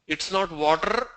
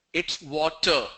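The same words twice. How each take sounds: First: The wrong way, "water" as "vater". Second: "water" with rounded lips, a true W; the right way, lips round for "water"; correct W water. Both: Shown as a demonstration.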